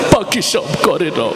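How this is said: It is recited in a tearful, crying voice. "কানতে কানতে বলতেছে"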